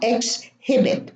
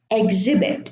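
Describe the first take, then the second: First: The h sound is pronounced. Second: The h sound is silent. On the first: The speaker calls it wrong. "It's not exhibit" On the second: The speaker calls it right. "we also have a silent H in these words"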